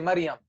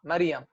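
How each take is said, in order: First: It is said in colloquial Syrian pronunciation. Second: It is said in colloquial Syrian pronunciation.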